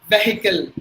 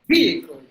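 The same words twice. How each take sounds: First: The vowel sounds are short. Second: The vowel sounds are long. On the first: The speaker calls it wrong. "Mostly we would say vehicle" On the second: The speaker calls it right. "So that means two long sounds"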